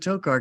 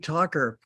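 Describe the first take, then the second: First: The first syllable does not sound like talk. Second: The first syllable sounds like the word talk. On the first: This is how the family says the name. "I've always pronounced it Tokar because that's the way my family did it" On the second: This matches how the name is spelled. "it should be Talker because the talk"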